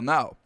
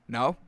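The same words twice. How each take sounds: First: The voice falls at the end. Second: The voice rises at the end.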